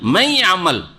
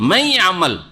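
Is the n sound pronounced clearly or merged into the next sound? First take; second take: merged; merged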